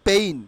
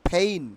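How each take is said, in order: First: The p is plain, with no puff of air. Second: The p has a strong puff of air. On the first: The speaker calls it wrong. "আমরা বলতাম পেইন" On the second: The speaker calls it right. "Not পেইন, ফেইন"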